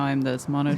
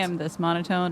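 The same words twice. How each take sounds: First: It is said in a lower-pitched character voice. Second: It is said in a natural, higher-pitched voice. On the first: This is the voice of a character being played. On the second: This is the speaker's everyday voice.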